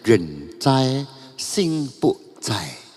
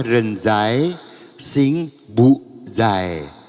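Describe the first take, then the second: First: The last word begins with a voiceless ts sound. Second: The last word begins with a voiced z sound. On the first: The speaker calls it right. "Harus pakai pinyin bacanya rencai sing pu cai" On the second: The speaker calls it wrong. "Jangan dibaca rencai sing bu zai"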